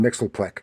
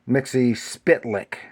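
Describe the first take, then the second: First: The name sounds like Mixelplek. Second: The name sounds like Mixie Spitlick. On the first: "a lot of people want to call him Mixelplek because they don't know how to" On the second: "Mixie himself pronounced it uh, Mixie Spitlick, but that's not really right"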